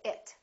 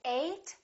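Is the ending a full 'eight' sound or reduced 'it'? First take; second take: reduced; full. First: The ending is reduced, sounding like 'it'. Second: The ending is fully pronounced like 'eight'. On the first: The word is an adjective or noun. "this is reduced, and it kind of sounds like it" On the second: The word is a verb. "we fully pronounce ate, and it kind of sounds like the number eight"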